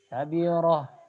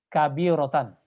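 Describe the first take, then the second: First: The word ends with a soft h sound. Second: The word ends with a full -tan ending. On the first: The reading stops on this word. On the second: The reading continues without stopping.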